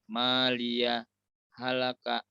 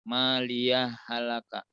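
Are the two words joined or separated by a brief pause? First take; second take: pause; joined. First: A brief stop without breath separates the words. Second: The words run together with no stop between. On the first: "saktah. Berhenti sejenak tanpa mengambil nafas" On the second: "tidak dijeda ataupun tidak diwaqaf"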